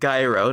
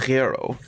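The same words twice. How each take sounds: First: The word starts with a hard g sound. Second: The word starts with a throaty r-like sound. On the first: The speaker calls it wrong. "Not a g like gyro" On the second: The speaker calls it right. "a gyro. ... it's a r, r"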